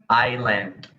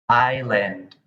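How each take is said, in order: Both takes have the same delivery.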